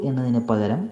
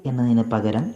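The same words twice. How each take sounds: The two takes are said the same way.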